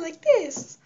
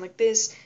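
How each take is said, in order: First: The voice is at a very high pitch. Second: The voice is at a normal pitch. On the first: "it just sounded really high like this" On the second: "I would make my voice normal and it would sound like this"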